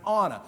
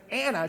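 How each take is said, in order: First: "Anna" with a short flat "a" as in "ant"; correct pronunciation. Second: "Anna" said the way she does not say it, first vowel as in "father"; wrong pronunciation. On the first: Telling the crowd how she really says her name, the right "Anna". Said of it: "she pronounces it Anna". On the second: Telling the crowd how her name is not said, the wrong "Anna". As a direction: give "Anna" the pronunciation she rejects, an open "ah" at the start. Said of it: "she doesn't pronounce it Anna". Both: Shown as a demonstration.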